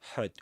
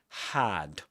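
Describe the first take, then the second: First: The vowel in the word is a schwa. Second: The vowel in the word is full. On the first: The speaker calls it wrong. "not had, had with a schwa" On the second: The speaker calls it right. "Had is pronounced with um in its strong form"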